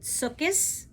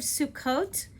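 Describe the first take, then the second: First: It is said in the Eastern European pronunciation. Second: It is said in the standard pronunciation.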